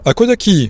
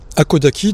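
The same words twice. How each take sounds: First: The word is said briskly and with liveliness. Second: The word is said calmly and plainly. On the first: It means it is as I said, no discussion. "quand on le prononce un peu vivement" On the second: It means what is from here. "sur le plan littéral, disons, c'est ce qui est d'ici"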